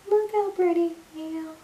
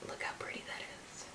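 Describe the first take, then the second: First: High cooing exclamation; high delighted coo. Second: Hushed whisper; soft whisper admiring the glow; whispered admiration. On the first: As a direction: coo at it happily. Same words, cooing high. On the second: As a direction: breathe it out like a secret. Whispering over highlighter. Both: Real, not acted.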